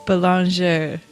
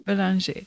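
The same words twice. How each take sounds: First: Surname in a careful French accent; attempted French pronunciation of "boulanger". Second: "boulanger" echoed with a French "zhee" ending; careful French "boulanger", final vowel closed to "ee"; copied French pronunciation. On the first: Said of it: "say that with a French accent". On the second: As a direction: repeat "boulanger" as the native speaker says it, ending in "ee". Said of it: "I would say boulanger". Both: Shown as a demonstration.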